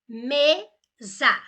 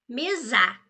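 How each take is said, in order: First: The stress is on the first syllable. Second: The stress is on the second syllable. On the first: The speaker calls it right. "imagine um acento, por exemplo, no E" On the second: The speaker calls it wrong. "ou no ZA"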